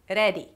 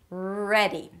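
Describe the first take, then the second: First: The R is a short tapped Spanish R. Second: The R is a held American R, tongue untouched. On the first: The speaker calls it wrong. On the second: The speaker calls it right.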